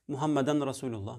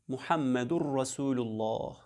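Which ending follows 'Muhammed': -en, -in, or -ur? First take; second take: -en; -ur. First: Muhammed is followed by an -en ending. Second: Muhammed is followed by an -ur ending. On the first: The speaker calls it wrong. "söylüyorlar. Yanlıştır bu" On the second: The speaker calls it right. "lafzı aynen şöyle söylenir"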